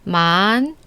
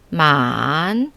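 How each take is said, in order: First: The pitch curves upward from lower to higher. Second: The pitch dips lower, then curves back up. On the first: "이성은 아래에서 위로 직선이 아니라 곡선을 타고 올라가는데" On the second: "삼성은 ... 아래로 내려갔다가 다시 위로 올라가는"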